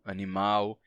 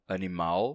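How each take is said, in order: First: The final L sounds like a W. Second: The final L sounds like a true L. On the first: This is the Brazilian change. "a vocalização do L no final de sílabas" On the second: This is the older pronunciation. "em vez de"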